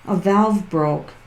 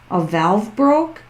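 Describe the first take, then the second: First: Slow, falling, quieter confirmation "A valve broke."; falling on "broke", accepting it; settled statement. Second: Slow with a rising question on broke; puzzled query on "broke"; questioning rise. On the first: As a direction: state it flatly as now understood. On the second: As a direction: ask it, unsure, "a valve broke?" lifting at the end. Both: Real, not acted.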